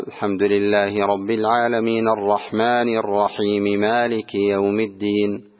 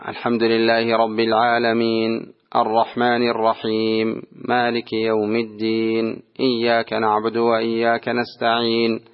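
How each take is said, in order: First: Slow linked recitation, العالمينَ and الرحيمِ with final vowels sounded; no stops, voicing the endings of العالمين and الرحيم; joined verse recitation. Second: Slow level recitation, العالمين and الرحيم ending on silent consonants; drawn-out العالمين, الرحيم, الدين, each cut without a final vowel; stopping at each verse. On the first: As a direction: run العالمين straight into الرحمن on its vowel. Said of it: "إذا وصل". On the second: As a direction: recite slowly in one breath, halting on العالمين and الرحيم vowelless. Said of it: "ويسكت هكذا". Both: Shown as a demonstration.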